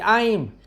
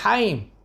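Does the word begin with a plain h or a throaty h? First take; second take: plain h; throaty h. First: The word begins with a light, plain h. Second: The word begins with a rough throaty h. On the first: The speaker calls it wrong. "il dit Haïm" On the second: The speaker calls it right. "C'est un Het"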